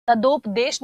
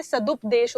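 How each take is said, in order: First: सदोपदेश read as the wrong form, with o; सदोपदेश with o, marked as wrong. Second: सदुपदेश read as the correct form, with u; सदुपदेश with u, the right one; correct form given. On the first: Teacher reads out the wrong spelling सदोपदेश. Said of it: "सदोपदेश नहीं होता है". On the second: Teacher gives the correct form सदुपदेश. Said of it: "सदुपदेश होता है". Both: Shown as a demonstration.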